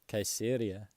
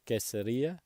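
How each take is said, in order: First: The stress falls before the 'ri' syllable. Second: The stress falls on the 'ri' syllable. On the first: The speaker calls it wrong. "what did I say?" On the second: The speaker calls it right. "there's an accent on the I at the end"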